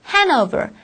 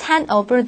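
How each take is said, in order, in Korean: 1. 'hand'의 끝 d는 발음되지 않아요. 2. 'hand'의 끝 d는 발음돼요. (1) "hand over이라고 들리게 됩니다" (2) "hand over이 아니라"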